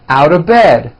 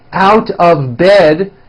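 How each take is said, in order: First: The words are squeezed into a reduced form. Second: Each word is said fully and separately.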